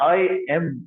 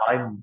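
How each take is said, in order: First: The two words are said separately, each fully. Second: The two words are joined into one short syllable. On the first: The speaker calls it wrong. "આપણે બોલવા માટે એમ આઈ એમ એમ બોલીએ છીએ" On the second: The speaker calls it right. "આઈ અને એમ બંને જોડાયેલા હોય એવી રીતે"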